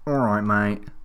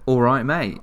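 First: It is said in a weird, put-on voice. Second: It is said in a normal voice.

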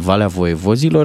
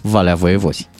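First: The last word is said with its full ending. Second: The last word is cut short at the end. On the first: This is the official form of the name. "localitatea absolut normală la cap în denumirea ei" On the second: This is how the local people say it. "pe care localnicii o pronunță foarte frumos"

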